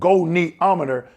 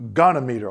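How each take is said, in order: First: An extra vowel sound follows the 'gon' part. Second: No extra vowel sound follows the 'gon' part. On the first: The speaker calls it right. "It's called goniometer" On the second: The speaker calls it wrong. "not gonometer"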